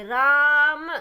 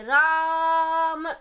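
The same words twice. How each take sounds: First: राम with a long आ, louder; राम said with a clear long vowel. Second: राम with the आ stretched very long, very slowly; राम sung out with a long held आ; very prolonged vowel. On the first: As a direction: say राम with the आ held at double length. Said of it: "अब दीर्घ को कैसे पढ़ेंगे?". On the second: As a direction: hold the आ in राम for a long time, louder. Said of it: "तो प्लुत को कैसे पढ़ेंगे?". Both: Shown as a demonstration.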